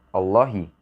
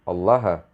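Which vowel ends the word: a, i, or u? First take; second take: i; a. First: The word ends in an i vowel. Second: The word ends in an a vowel. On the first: The word comes after the preposition bi. "Pada akhir kata Allah berharokat kasroh" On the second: The word comes after the particle inna. "Pada akhir kata Allah berharokat fathah"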